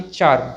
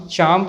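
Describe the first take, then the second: First: चार्म with an audible r; sounded r. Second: चार्म with no r sound; silent r. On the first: Teacher warns against this version, r sounded. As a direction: let the r be heard in चार्म. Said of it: "ना कि". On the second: Teacher restates the rule, r silent. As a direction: drop the r in चार्म, "chaam". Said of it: "कोई sound नहीं होगी". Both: Shown as a demonstration.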